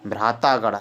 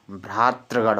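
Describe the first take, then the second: First: "भ्रातागढ़" with taa in the middle; wrong form demonstrated. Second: "भ्रातृगढ़" with tri in the middle; correct form demonstrated. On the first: ("भ्रातागढ़" में ता) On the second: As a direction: roll t into r in "भ्रातृगढ़". ("भ्रातृगढ़" में तृ) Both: Shown as a demonstration. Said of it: "भ्रातृगढ़ होता है".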